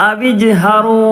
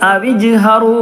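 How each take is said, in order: No difference in how they are said.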